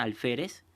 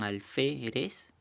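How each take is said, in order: First: Said in the usual way. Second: "alférez" slowly split as al, fé, rez; syllable by syllable. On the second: Shown as a demonstration. Teacher showing pupils the syllables, "alférez" slowly separated. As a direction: spell out the beats of "alférez", one syllable each. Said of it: "si ustedes lo separan en sílabas".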